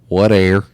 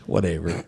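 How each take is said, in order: First: It is clipped to two syllables, 'what air'. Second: It is said with all three syllables. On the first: "if somebody said what air" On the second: "instead of whatever"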